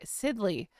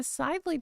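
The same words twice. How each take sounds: First: "Sidley" with a short i, like SID-lee; corrected name. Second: "Sidley" said with a long i, like SIDE-lee; mispronounced name. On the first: Streamer correcting the twins' name, "Sidley" said SID-lee with short i. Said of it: "So sorry". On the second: Streamer slipping on the twins' name, "Sidley" mispronounced SIDE-lee. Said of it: "I keep calling Sidley". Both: Real, not acted.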